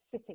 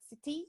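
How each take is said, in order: First: The pitch does not go up at the end. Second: The pitch goes up at the end. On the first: The speaker calls it right. "but it's city" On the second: The speaker calls it wrong. "So it's not going up like the"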